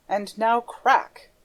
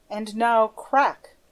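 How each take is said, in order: First: Slow menace. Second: Slow menacing voice; slow, drawn-out threat. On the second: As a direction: drag out the words like a threat. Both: A narrator's reading. Erik's slow menacing countdown.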